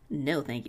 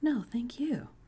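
First: It is said in a snide, pointed tone. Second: It is said in a sincere, friendly tone.

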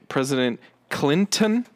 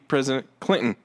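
First: The T in Clinton is clearly pronounced. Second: The T in Clinton is dropped. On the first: The speaker calls it wrong. "with a T" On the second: The speaker calls it right. "It has to be"

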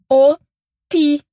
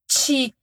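First: The t is a hard, plain stop. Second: The t is softened into a ch-like sound. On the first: The speaker calls it right. "que é rígido" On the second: The speaker calls it wrong. "nunca é ti"

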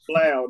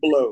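First: The vowel does not rhyme with dough. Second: The vowel rhymes with dough. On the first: The speaker calls it right. "that man's name is Blau" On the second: The speaker calls it wrong. "not Blow"

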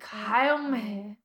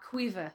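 First: The name begins with a 'kay' sound. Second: The name begins with a 'kwee' sound. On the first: This is how the speaker first guessed the name. The speaker calls it wrong. "Because I'm like, Kaomi" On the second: This is the actual pronunciation of the name. The speaker calls it right. "it's pronounced Quiva"

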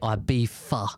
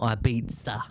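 First: It is said with a British pronunciation. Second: It is said with a non-British pronunciation. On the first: The speaker calls it right. "in the UK, we do say Ibiza" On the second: The speaker calls it wrong. "not Ibiza"

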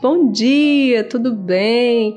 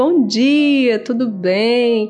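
First: The greeting sounds cheerful and genuinely happy. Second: The greeting sounds cheerful and genuinely happy.

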